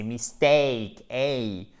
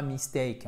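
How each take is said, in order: First: "mistake" very slow, long strong "ay", echoed "hey"; powerful diphthong. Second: "mistake" with a weak, short second vowel; the faulty "mistake", second syllable not leaned on; wrong pronunciation. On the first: Teacher correcting students, "mistake" with powerful drawn-out "ay". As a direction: stretch "take" in "mistake" into a big "ay". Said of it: "qui est puissant". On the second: Teacher showing students the mistake, weak vowel in "mistake". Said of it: "C'est pas mistake". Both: Shown as a demonstration.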